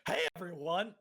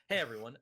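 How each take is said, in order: First: It is said in a put-on character voice. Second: It is said in his natural voice.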